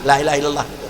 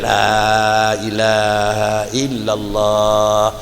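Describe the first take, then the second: First: The vowel is said short, without lengthening. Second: The vowel is drawn out long. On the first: The speaker calls it wrong. "sampai gadah panjang" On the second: The speaker calls it right. "Jadi baik panjang"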